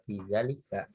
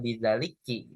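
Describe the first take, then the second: First: The word ends with an 'a' vowel. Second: The word ends with an 'i' vowel. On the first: The speaker calls it right. "tetap bizalika" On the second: The speaker calls it wrong. "Kita nggak bi- nggak bacanya bizaliki"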